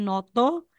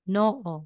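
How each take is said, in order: First: A t sound is heard between the vowels. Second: No consonant is heard between the vowels. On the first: The speaker calls it wrong. "hindi po siya noto" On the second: The speaker calls it right. "magiging noo"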